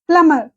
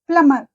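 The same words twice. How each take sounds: The two takes are said the same way.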